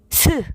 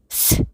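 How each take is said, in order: First: The s is voiced with a vowel after it. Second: The s is only air, with no voice. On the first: The speaker calls it wrong. "앞에 스 이거는 목소리에서부터 목으로 소리를 내는 거죠" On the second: The speaker calls it right. "목소리는 내지 않고 혀와 이 사이로 바람이 나가는 그 소리만을"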